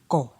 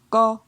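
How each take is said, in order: First: The syllable is said on a low tone. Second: The syllable is said on a mid tone. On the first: "Pour un ton bas"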